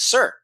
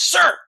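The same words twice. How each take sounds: First: It is said somewhat louder. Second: It is yelled.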